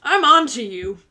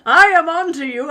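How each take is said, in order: First: Louder mock threat, fist shaken; a playful I'm-watching-you; mock warning. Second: Much louder, higher mock shout of "I am on to you". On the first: Viewer told to warn their person, loud mock warning. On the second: Viewer told to warn their person, hammed-up mock shout. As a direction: bellow it like a cartoon villain caught out. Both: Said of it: "shake your fist at them and say".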